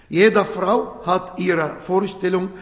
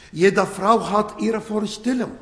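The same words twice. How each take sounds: The two takes are said the same way.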